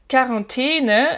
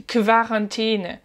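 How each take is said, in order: First: Said in the usual way. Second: Quarantäne avec kv au début; Q U dit kve. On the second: Shown as a demonstration. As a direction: dis Quarantäne en commençant par kv, lentement. (Quarantäne prononcé kvaʀɛten, lentement) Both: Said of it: "le Q U en allemand se prononce plutôt kve".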